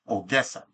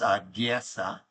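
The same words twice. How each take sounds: First: The first vowel is a full, solid O. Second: The first vowel is weak and reduced. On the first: It is the Ukrainian pronunciation. "it's a solid O" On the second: It is the Russian pronunciation. "if you're speaking it in Russian"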